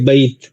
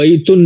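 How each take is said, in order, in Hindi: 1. शब्द बिना स्वर के व्यंजन पर खत्म होता है। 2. शब्द के अंत में अतिरिक्त -un अक्षर है। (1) "याद करेंगे बैत बस" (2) "इसको बैतुन नहीं पढ़ेंगे"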